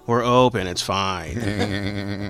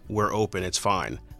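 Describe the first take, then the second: First: It is said in an imitated put-on voice. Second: It is said in the speaker's normal voice. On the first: "But it was like in her voice, like" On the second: "She just said"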